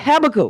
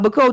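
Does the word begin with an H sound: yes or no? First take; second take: yes; no. First: It begins with an added H sound. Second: It begins with a vowel, no H.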